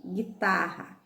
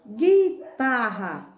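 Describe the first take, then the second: First: Said in the usual way. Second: "Guitarra" drawn out slowly, the final a held long; slow careful reading. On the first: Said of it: "Não, então marque". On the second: Shown as a demonstration. Teacher checking the word with the class, saying "Guitarra" slowly. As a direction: stretch "Guitarra" so the class hears gi with no u sound. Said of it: "A letra U tem pronúncia?".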